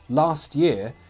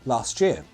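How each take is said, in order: First: The T is said clearly before year. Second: The T and Y join into a ch sound.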